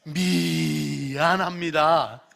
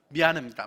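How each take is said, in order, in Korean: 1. 부드럽고 진심 있게 말합니다. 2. 갑자기 날카롭게 말합니다.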